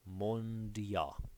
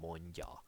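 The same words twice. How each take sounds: First: The d and y sounds are said separately. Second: The d and y sounds blend into one. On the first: "technically you would s- you should say d and y" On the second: "just say it very quickly ... and then it will become mondia"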